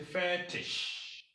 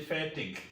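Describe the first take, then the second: First: The word ends with a soft sh-like sound. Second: The word ends with a hard g sound. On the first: The speaker calls it right. "you say fetish. So the G becomes S H" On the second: The speaker calls it wrong. "You don't say fetish"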